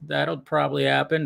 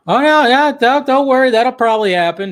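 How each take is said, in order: First: Said in the usual way. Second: High, loud hurried reassurance; excited reassurance. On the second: Real, not acted. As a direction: jump in to calm the chat, excited. Host reacting excitedly to chat.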